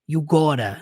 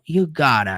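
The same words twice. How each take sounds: First: The vowel in gotta is closed. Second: The vowel in gotta is more open. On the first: The speaker calls it wrong. "Literalmente com o som do O" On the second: The speaker calls it right. "É um pouco mais aberto"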